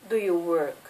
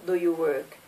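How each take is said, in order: Both takes have the same delivery.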